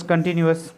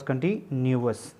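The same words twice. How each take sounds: First: Said in the usual way. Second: "कंटिन्यूअस" with a break after कंटि, then न्यू-अस; split final syllable. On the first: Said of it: "ताकि clear हो जाए". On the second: Shown as a demonstration. Teacher making the ending clear, "कंटिन्यूअस" said in parts. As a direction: make the अस ending of "कंटिन्यूअस" distinct. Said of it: "यहाँ पे हमने अस का sound पढ़ना है".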